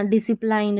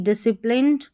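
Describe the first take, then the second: First: "डिसिप्लाइंड" ending in plined, like "kind"; wrong long-I ending. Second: "डिसिप्लिन्ड" ending in plinnd, short i; correct short-I ending. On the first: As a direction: say "डिसिप्लाइंड" with an eye vowel at the end. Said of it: "डिसिप्लाइंड नहीं". ("डिसिप्लाइंड" के अंत में प्लाइंड बोलें) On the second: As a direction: model "डिसिप्लिन्ड" with plin, never pline. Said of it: "यहाँ पर प्लाइंड नहीं पढ़ना". ("डिसिप्लिन्ड" के अंत में छोटी इ, प्लिन्ड) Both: Shown as a demonstration.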